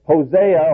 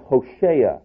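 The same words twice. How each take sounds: First: Said in the usual way. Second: "Hosea" said as ho-SHAY-ah; sh in place of the z in "Hosea"; Hebrew pronunciation. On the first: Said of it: "or actually Hosea". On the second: Shown as a demonstration. Preacher correcting the name to its Hebrew form, "Hosea" as ho-SHAY-ah. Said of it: "more correctly Hosea".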